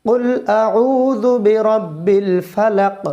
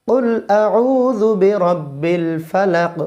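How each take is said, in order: The two takes are said the same way.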